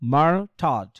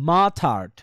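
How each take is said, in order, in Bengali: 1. প্রথম সিলেবলের r উচ্চারিত হয়। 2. প্রথম সিলেবলের r নীরব থাকে। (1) "আমরা যদি বলি মার থার্ড, ... উচ্চারণ করতে কেমন কেমন জানি লাগে" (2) "বাট মা থার্ড, ... এটা কিন্তু স্মুথলি আমরা করতে পারতেছি"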